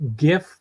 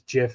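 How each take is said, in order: First: The word begins with a hard G sound. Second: The word begins with a J sound. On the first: The speaker calls it right. "GIF with a hard G" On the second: The speaker calls it wrong. "JIF as in peanut butter"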